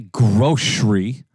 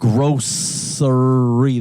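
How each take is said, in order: First: The middle consonant is slurred, not a clear 's'. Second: The middle consonant is a clear 's' sound. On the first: The speaker calls it wrong. "It don't say grocery" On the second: The speaker calls it right. "It says grocery. There's a C"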